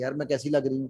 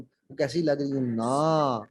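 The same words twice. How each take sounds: First: यार मैं कैसी लग रही हूँ run through evenly, no lift; statement intonation. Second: ना stretched long at the end of slower line; slow down and draw out ना as a question; questioning intonation. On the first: Trainer showing what men hear, हूँ left as statement. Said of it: "मर्द समझता है ये statement". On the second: Trainer showing women's real question, ना drawn out. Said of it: "वो सवाल पूछ रही होती हैं". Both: Shown as a demonstration.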